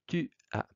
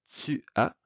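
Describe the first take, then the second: First: It is said with a France French accent. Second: It is said with a Quebec French accent. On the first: "à la française" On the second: "à la québécoise"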